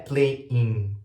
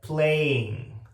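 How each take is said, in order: First: The -ing ending resonates strongly in the nose. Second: The -ing ending is pulled back toward the throat. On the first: The speaker calls it wrong. "não é playing, que fica aqui no meu nariz" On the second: The speaker calls it right. "Eu meio que puxo um pouco para minha garganta"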